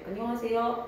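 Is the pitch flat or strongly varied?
flat. The pitch stays fairly flat.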